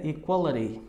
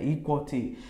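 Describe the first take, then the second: First: EQUALITY said "equaleri", middle vowel kept; right form with I. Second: EQUALITY said "equal-ti", falling; wrong form without I. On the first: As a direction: keep the I and tap the T in EQUALITY. ("Equality" com o I e R brando) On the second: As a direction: leave out the middle vowel of EQUALITY. ("Equality" sem o I, com T claro) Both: Shown as a demonstration. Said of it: "Não, tem o I".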